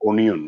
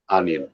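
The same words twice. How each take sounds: First: The first vowel sounds like 'oh'. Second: The first vowel sounds like 'ah'. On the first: The speaker calls it wrong. "They will never pronounce like onion" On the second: The speaker calls it right. "when you pronounce onion, you are pronouncing ah"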